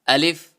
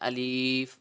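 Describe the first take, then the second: First: The middle vowel is short, not drawn out. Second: The middle vowel is long and drawn out. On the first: The speaker calls it right. "अलिफ को खींचना नहीं है।" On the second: The speaker calls it wrong. "खींच कर पढ़ते हैं ... ये तरीकाकार गलत है"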